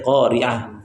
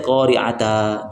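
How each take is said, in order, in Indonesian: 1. Kata itu berakhir dengan bunyi h yang lembut. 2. Kata itu berakhir dengan vokal a yang dipanjangkan. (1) "Tapi qari'ah" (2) "kita tidak boleh kita baca qari'ata, tidak bisa"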